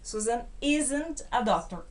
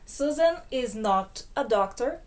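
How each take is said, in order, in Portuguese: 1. A negação se junta ao verbo, como isn't. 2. Cada palavra é dita por completo, sem contração. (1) "pronúncia aqui também" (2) "na forma cheia"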